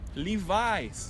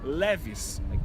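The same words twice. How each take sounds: First: The brand is said in an English way. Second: The brand is said in a Brazilian Portuguese way. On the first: "em inglês o nome Levi é Levi. Logo a marca que vai estar aqui é Levi's" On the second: "no Brasil, especialmente na minha cidade, a gente escuta Levi's"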